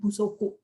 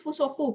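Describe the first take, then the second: First: The word begins with a b sound. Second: The word begins with an f sound. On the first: The word is joined to another word. "kalau digandeng busoku" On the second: The word stands on its own. "Kalau dibaca sendiri fusoku"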